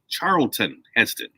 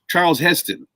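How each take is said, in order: First: The first name has no s sound. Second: The first name ends without a final ton. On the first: The speaker calls it right. "Now it's Charlton" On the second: The speaker calls it wrong. "they weren't saying the the the ton at the end of it"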